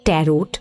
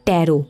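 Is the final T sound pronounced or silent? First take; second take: pronounced; silent. First: The word ends with a T sound. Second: The word ends without a T sound. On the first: The speaker calls it wrong. "Not ট্যারোট। টির উচ্চারণ উজ্জ।" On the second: The speaker calls it right. "তবে কথাটা ট্যারো"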